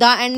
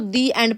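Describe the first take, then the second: First: The word 'the' is said with a short 'uh' vowel. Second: The word 'the' is said with a long 'ee' vowel. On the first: The speaker calls it wrong. "आप उस time दा एंड नहीं बोलते ना उसको" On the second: The speaker calls it right. "आप उसको दी एंड पढ़ते हो"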